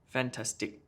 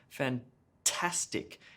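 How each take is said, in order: First: All syllables get equal stress. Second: The middle syllable is stressed, others weaker. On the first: The speaker calls it wrong. "let me just try to do it with even stress on each of the syllables" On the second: The speaker calls it right. "emphasis on the middle syllable there"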